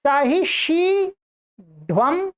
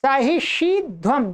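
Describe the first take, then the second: First: सहिष्यध्वम with the ध said as retroflex ढ (सहिष्यढ्वम); सहिष्यध्वम with tongue curled back on ढ; retroflex ढ form. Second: सहिष्यध्वम with a plain dental ध; सहिष्यध्वम with ध not turned into ढ; dental ध form. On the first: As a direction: say सहिष्यध्वम with a hard retroflex ढ before व. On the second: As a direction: say सहिष्यध्वम keeping the dental ध, tongue on the teeth. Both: Shown as a demonstration. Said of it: "दो बनेंगे यहाँ पर".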